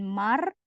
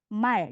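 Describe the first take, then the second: First: The word ends in an r sound. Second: The word ends in an l sound. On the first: The speaker calls it wrong. "Jadi bukan mar, bukan mar ya, salah bukan mar" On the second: The speaker calls it right. "Kalau di bawah dibaca L"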